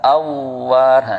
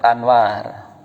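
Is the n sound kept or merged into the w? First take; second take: merged; kept. First: The n merges into a doubled w sound. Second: The n is clearly sounded before the w. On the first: The speaker calls it wrong. "nggak boleh diidghamkan" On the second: The speaker calls it right. "Tetap Anwar"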